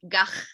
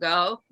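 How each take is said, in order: First: The ending is a guttural sound from the throat. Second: The ending has no guttural throat sound. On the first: "the Dutch pronunciation is very guttural" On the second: "The English pronunciation is Van Gogh"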